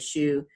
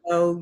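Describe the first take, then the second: First: The word ends in an 'oo' vowel. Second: The word ends in an 'oh' vowel. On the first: The speaker calls it wrong. "we mispronounce it now if we're reading from King James and say shoe" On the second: The speaker calls it right. "but that's show"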